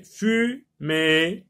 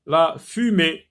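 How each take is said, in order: First: "fumée" split slowly into two syllables. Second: Said in the usual way. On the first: Shown as a demonstration. Teacher showing where the É sound falls, "fumée" syllable by syllable. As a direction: sound out "fumée" with a gap before the last syllable. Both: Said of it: "Dans la deuxième syllabe".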